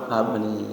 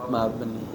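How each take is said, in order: The two takes are said the same way.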